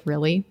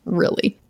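First: A soft questioning "Really?" rising up; incredulous. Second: "Really?" falling, through a laugh; laughing disbelief. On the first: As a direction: ask "Really?" softly, rising, in disbelief. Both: Retold or imitated. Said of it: "I was like".

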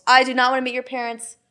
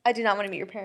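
First: Said in the usual way. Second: Drops lower and much softer the second time; quiet repeat. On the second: Real, not acted. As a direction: mutter it again under the breath. Repeats the line for emphasis.

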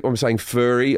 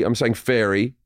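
First: FURRY with an "ur" vowel; misheard as furry. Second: FAIRY with an open "air" vowel; intended word fairy. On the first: Comedian showing what people hear, FURRY with "ur". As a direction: say FURRY, rhyming with blurry. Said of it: "people think that I'm saying furry". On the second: Comedian correcting what people hear, FAIRY with "air". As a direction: say FAIRY, rhyming with dairy. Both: Shown as a demonstration.

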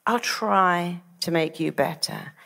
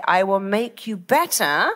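First: Slow, noncommittal promise; tentative doctor. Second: Firm promise with no doubt; confident promise. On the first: Retold or imitated. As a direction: offer a hesitant promise, slowly. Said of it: "are very different to, Well, I'll try". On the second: Shown as a demonstration. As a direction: promise it as a certainty. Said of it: "are very different to".

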